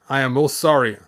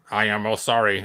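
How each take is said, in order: First: Said in the usual way. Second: Flat, even robot voice. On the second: Acted. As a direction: speak like a polite robot. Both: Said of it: "Gotta do the robot voice".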